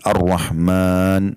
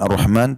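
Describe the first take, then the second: First: The vowel is held slightly longer. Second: The vowel is said short, not lengthened. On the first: The speaker calls it right. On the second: The speaker calls it wrong.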